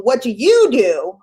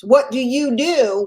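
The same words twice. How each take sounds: First: What do you do? with you lifted and rising; stress on YOU. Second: What do you do? with WHAT leaned on, falling; stress on WHAT. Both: Shown as a demonstration. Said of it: "I'll change the emphasis there".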